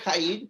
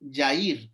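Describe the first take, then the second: First: The name begins with a harsh throaty J sound. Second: The name begins with a soft Y sound. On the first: This is how the spelling reads. "se escribe Jair" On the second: This is how the name is actually said. "la pronunciación es Jair, como si fuera con Y"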